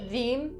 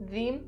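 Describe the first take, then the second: First: The first sound is a voiced th. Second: The first sound is a voiced th.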